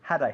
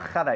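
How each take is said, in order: First: The h is a soft, breathy sound. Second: The h is a harsh, throaty sound. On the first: The speaker calls it right. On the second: The speaker calls it wrong.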